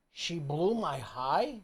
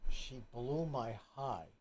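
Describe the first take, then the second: First: Slow, rising disbelief; incredulous echo. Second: Low, slow, incredulous repeat; mock quote. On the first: Shown as a demonstration. Podcast host repeating the quote back, slow and incredulous. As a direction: throw the words back, stunned. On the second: Repeating the husband's words in disbelief, slow and low. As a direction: echo his words in disbelief.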